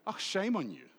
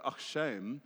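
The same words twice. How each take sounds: First: Higher mock scolding, falling at the end; shaming reproach. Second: Light demo of pitying sympathy, rising at the end; sympathetic South African usage. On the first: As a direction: demonstrate putting shame on someone. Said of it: "we put shame on people". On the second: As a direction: show how a South African commiserates. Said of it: "like, in South Africa". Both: Shown as a demonstration.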